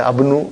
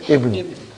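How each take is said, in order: First: The word begins with an a vowel. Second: The word begins with an i vowel. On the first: The speaker calls it wrong. "I will never say Abnu" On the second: The speaker calls it right. "It is always Ibnu"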